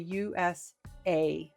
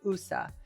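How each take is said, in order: First: Each letter is said separately with a long A. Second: It is run together as a single word. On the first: The speaker calls it right. "you have to say each letter" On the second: The speaker calls it wrong. "You can't say U S A. It's not a word"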